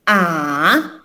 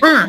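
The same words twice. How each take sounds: First: The pitch dips down, then rises. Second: The pitch falls sharply like anger. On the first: "agak turun sedikit dulu baru ke atas" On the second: "nadanya akan seperti orang marah"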